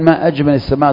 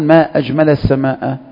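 First: It is voweled and spoken as a question. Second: It is voweled and spoken as an exclamation. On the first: It asks what the most beautiful thing in the sky is. "تقصد به الاستفهام، حينئذ سيكون له ضبط آخر" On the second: It expresses wonder at how beautiful the sky is. "ليس استفهاما إنما هو تعجب"

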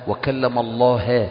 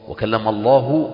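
First: The word Allah ends with an a vowel. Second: The word Allah ends with a u vowel. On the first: Moses is the one who speaks. The speaker calls it wrong. "حتى يكون موسى هو المتكلم وليس الله" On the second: God is the one who speaks. The speaker calls it right. "يبقى المتكلم هو الله"

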